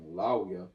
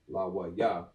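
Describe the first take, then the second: First: The syllables run together and a vowel drops. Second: Each syllable is said separately with full vowels. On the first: "with that Y being attached to it" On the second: "normally that would have been"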